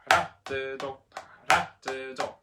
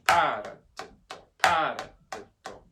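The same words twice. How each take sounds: First: RA of paradiddle punched; light pa, strong RA in paradiddle; accent on second syllable. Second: PA of Paradiddle punched loud; accent on first syllable. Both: Shown as a demonstration. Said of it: "accent number one and number two".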